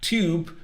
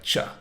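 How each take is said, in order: First: The word begins with a clear t sound. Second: The word begins with a ch sound.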